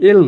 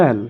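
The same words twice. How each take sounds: First: Said in the usual way. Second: "এল" with an open ae vowel; corrected letter L. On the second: Shown as a demonstration. ("এল" খোলা অ্যা-ধ্বনিতে) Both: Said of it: "এল নয়".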